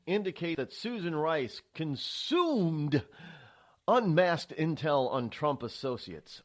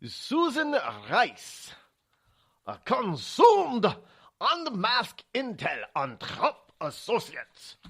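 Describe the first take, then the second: First: Said in the usual way. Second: Put-on slow, hammy German accent; bad German accent. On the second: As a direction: read it in an over-the-top German accent. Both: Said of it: "my very bad German accent".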